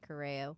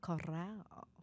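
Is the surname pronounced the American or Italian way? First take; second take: American; Italian. First: The surname is said with Americanized pronunciation. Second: The surname is said with Italian pronunciation. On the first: This is the family's Americanized form. "but we say Correo" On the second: This is the original form used in Italy. "That's how they say it in Italy"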